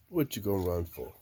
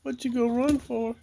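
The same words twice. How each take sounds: First: Said in the usual way. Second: High teasing voice; high, teasing question to the chicken. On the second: Real, not acted. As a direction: playfully question the hen. Teasing hens.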